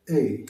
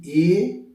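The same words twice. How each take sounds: First: "এ" short, falling, gently released; softened vowel. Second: "এ" as a loud, long vowel; hard local pronunciation. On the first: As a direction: let "এ" glide down gently. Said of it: "একটু নরম করে". ("এ" একটু নরম করে) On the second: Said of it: "আমরা বলি এ". ("এ" জোরে, টেনে) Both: Shown as a demonstration.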